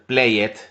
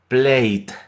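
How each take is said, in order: First: The e is voiced, adding an extra syllable. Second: The e is silent, keeping one syllable. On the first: The speaker calls it wrong. "no se puede hacer played, ¿sí? Pronunciando la e" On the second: The speaker calls it right. "la e al final de una palabra no suena"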